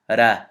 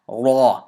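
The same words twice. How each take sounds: First: The r sound is light and thin. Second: The r sound is heavy and full. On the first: The speaker calls it wrong. "pronouncing it incorrectly" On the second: The speaker calls it right. "You have to make this heavy"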